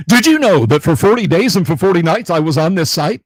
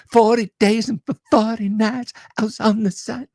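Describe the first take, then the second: First: Loud, high-pitched Shorts narrator; YouTube Shorts voice. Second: High-pitched pop-star voice; [name] lyric impression. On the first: Shown as a demonstration. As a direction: belt it out like an over-hyped short-video host. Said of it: "in my YouTube Shorts voice". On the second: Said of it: "the [name] glove".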